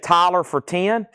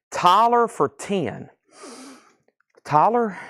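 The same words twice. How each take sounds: First: Said in the usual way. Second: Slow and higher, puzzled over the name; rereading a bid that makes no sense; puzzled repeat. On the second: Real, not acted. Host puzzles over a strange chat bid, slow and higher. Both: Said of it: "What was Tyler?".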